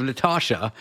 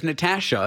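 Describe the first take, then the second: First: Natasha the US way; American pronunciation. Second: Natasha the Canadian way; Canadian pronunciation. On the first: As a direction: say Natasha with an open "ah" in the middle. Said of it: "instead of Natasha". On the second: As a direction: say Natasha with the "a" of "cat". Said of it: "I would occasionally get it wrong". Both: Shown as a demonstration.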